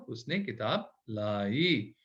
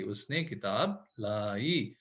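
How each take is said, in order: First: उसने किताब लाई read very slowly; stretched teaching sentence; slow model sentence. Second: उसने किताब लाई read very slowly and softly; stretched teaching sentence; slow model sentence. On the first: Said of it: "पढ़े इसको". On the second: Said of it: "लाम अलिफ ऐसे". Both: Shown as a demonstration.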